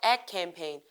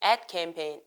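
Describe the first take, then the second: No difference in how they are said.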